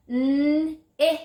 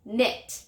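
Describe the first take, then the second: First: 'N-it' drawn out sound by sound on a high note; stretched word. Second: Said in the usual way. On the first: Shown as a demonstration. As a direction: hold the n and i of 'N-it', then release the t. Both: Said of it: "Listen again".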